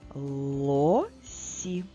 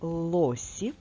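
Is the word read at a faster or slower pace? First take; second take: slower; faster. First: The word is read at a slower pace. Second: The word is read at a faster pace.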